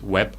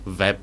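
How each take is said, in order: First: The word begins with a W sound. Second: The word begins with a V sound. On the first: The speaker calls it wrong. "No es web" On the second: The speaker calls it right. "Decimos web"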